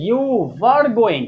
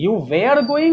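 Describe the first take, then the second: First: "were" with a short central vowel, like vur; correct "were". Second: "were" with an "air" vowel, like vair; wrong "were". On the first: Teacher modelling the right sentence, "were" as "vur". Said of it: "बिल्कुल वर पढ़ेंगे". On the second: Teacher showing the wrong sentence, "were" as "vair". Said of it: "this is not the right pronunciation". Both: Shown as a demonstration.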